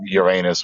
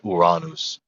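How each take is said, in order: First: It is said with an American pronunciation. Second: It is said with a Latin-style pronunciation. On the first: "We say it with our American accent" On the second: "the Romans would have said Uranus"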